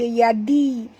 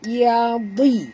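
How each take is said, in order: First: The d sound is light and thin. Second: The d sound is heavy and thick. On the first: The speaker calls it wrong. "jangan baca yadi. Kalau baca yadi jadi huruf dal" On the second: The speaker calls it right. "di tebal, ini huruf dad"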